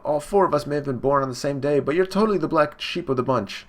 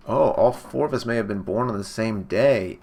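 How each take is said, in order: First: Higher-pitched acted jeer; imitated sibling scorn, pitch raised; taunting brother. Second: Said in the usual way. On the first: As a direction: put on a bullying brother's taunt. Brother taunts young Sanji.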